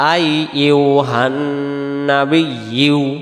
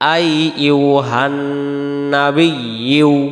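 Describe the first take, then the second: The two takes are said the same way.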